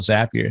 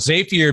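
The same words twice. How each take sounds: First: The first syllable sounds like 'zap', as in zaps. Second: The first syllable sounds like 'zay', rhyming with rapier. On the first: The speaker calls it right. "they call them Zaps. I'm like I guess they should probably call it Zapier" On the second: The speaker calls it wrong. "it reminds me of a of the classic sort of uh, you know old school pirate sword, this a rapier"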